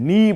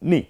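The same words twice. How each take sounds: First: The vowel is drawn out long. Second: The vowel is cut short and quick. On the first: The speaker calls it wrong. "আপনি নি বলবেন না" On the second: The speaker calls it right. "হারাকাতের উচ্চারণ খুব দ্রুত করতে হয়"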